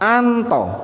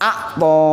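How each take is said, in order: First: An n sound comes before the t. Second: An ain sound comes before the t. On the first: This is how one Arab dialect says the word. "Jadi kata akto itu dibaca anto" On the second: This is the standard form of the word. "akto ini artinya memberi"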